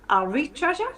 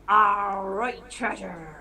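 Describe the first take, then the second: First: It is said in a Geordie accent. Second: It is said in a pirate voice.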